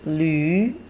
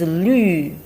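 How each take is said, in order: First: The syllable is said with the second tone. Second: The syllable is said with the fourth tone. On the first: It means donkey. "the second tone of combination le and yu" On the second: It means green. "The last one"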